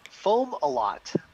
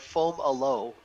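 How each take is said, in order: First: The name ends with a clear t sound. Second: The name ends on an open vowel. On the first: This is the main pronunciation. "that's foam a lot" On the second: This is an alternative pronunciation. "foam a low is the secondary pronunciation"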